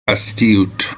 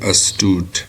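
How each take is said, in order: First: It is said with a British pronunciation. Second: It is said with an American pronunciation.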